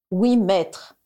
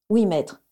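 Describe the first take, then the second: First: Dictating. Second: Docile repeat. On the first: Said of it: "dicta Voldemort". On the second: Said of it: "répéta docilement Bellatrix". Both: Acted.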